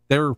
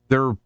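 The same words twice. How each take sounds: The two takes are said the same way.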